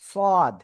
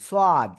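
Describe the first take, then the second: The two takes are said the same way.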